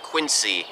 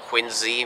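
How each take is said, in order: First: The middle consonant is a hissing S sound. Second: The middle consonant is a buzzing Z sound. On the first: The speaker calls it wrong. "It's not Quincy" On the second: The speaker calls it right. "is pronounced with a Z sound, like a zoo or zipper"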